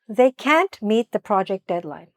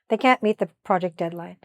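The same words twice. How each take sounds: First: The sentence is said at a normal pace. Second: The sentence is said very quickly.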